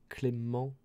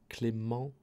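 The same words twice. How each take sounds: The two takes are said the same way.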